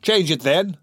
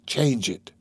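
First: High, light taunting retort; mocking amusement. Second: Contained, incredulous echo of anger; exasperated. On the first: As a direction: toss it back with a touch of amusement. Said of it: "responded the girl with a laugh". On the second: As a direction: throw it back with restrained exasperation. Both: A narrator's reading.

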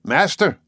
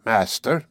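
First: Higher, louder shout in disbelief. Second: Even, unhurried one-word question; calm. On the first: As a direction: fling the word back incredulously. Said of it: "I shouted". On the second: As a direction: ask it calmly, without concern. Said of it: "and calmly ... said". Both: A narrator's reading.

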